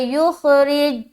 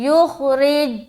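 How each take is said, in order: No difference in how they are said.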